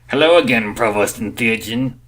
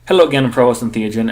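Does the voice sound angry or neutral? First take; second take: angry; neutral. First: It is said seething, through clenched teeth. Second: It is said in a plain, neutral voice.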